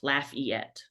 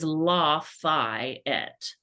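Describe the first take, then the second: First: It is said as laugh-eat-et. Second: It is said with a French pronunciation. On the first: It names the Louisiana city. "It is laugh like haha, eat like the letter, and et" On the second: It names the French marquis. "which is how you say his name, which is French"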